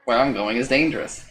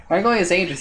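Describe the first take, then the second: First: Said in the usual way. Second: Warning. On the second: A narrator's reading. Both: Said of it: "you warn the creature".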